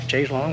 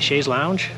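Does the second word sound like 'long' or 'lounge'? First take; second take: long; lounge. First: The second word sounds like 'long'. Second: The second word sounds like 'lounge'. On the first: "like the song" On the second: "I don't know how you say it"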